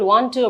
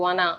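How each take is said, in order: First: It is said as two full, separate words. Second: It is said as one reduced, blended word. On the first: "for example வாண்ட் டு அப்படின்றது" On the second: "வானா அப்படின்னு சொல்லுவாங்க"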